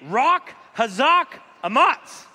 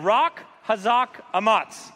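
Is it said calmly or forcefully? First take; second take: forcefully; calmly. First: It is said with strong, forceful energy. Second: It is said in a calm, ordinary voice. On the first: "Now say it like you mean it" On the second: "let's say it all together now"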